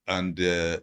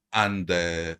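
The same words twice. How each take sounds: The two takes are said the same way.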